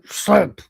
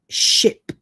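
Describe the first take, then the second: First: The word begins with an 'sl' sound. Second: The word begins with a plain 'sh' sound. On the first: The speaker calls it wrong. "You go" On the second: The speaker calls it right. "How can you not articulate the word ship?"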